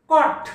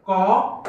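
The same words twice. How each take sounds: First: Said in the usual way. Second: "कॉट" split as कॉ... ट; phonics-style कॉ, pause, ट; sounded out. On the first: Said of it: "संपला शब्द". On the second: Shown as a demonstration. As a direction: hold कॉ, then add a separate ट. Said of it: "पहिला syllable".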